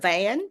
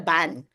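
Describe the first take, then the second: First: The word starts with a V sound. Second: The word starts with a B sound. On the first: "instead of van" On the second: "we don't have a V, it's a B"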